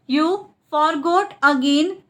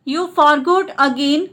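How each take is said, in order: First: Split repeat. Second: Said in the usual way. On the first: Shown as a demonstration. Teacher repeats the translation for learners, split up. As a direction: pause after "You", then "forgot again".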